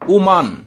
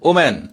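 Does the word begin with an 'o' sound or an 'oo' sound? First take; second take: oo; o. First: The word begins with an 'oo' vowel. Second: The word begins with an 'o' vowel. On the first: The speaker calls it right. "সঠিক উচ্চারণটা হবে উমান" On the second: The speaker calls it wrong. "আমরা বলি ওম্যান, যেটা সঠিক নয়"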